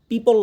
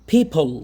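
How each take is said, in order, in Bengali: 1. p ধ্বনিটি অল্পপ্রাণ, কোনো ফুঁ নেই। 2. p ধ্বনিটি মহাপ্রাণ, ফুঁ আছে। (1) "পিপল না কিন্তু" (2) "প আর ফর মাঝখানে হবে"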